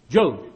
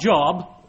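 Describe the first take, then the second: First: The vowel is long, as in 'robe'. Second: The vowel is short, as in 'job'. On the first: The speaker calls it right. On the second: The speaker calls it wrong.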